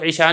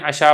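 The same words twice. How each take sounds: First: ईशा said with a long ee, like the prayer name; wrong reading. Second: अशा said with a short open a, no ee; correct reading. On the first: Teacher showing students the wrong reading, ईशा with long ee. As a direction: read it ईशा, long ee, the way to avoid. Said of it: "इसको ईशा नहीं पढ़ना". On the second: Teacher showing students the right reading, अशा with short a. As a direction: read it अशा, short a at the start. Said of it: "इसको अपने अशा पढ़ना है". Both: Shown as a demonstration.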